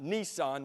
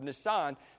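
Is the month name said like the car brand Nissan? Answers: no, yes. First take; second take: yes; no. First: It sounds like the car brand's name. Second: It does not sound like the car brand. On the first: The speaker calls it wrong. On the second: The speaker calls it right.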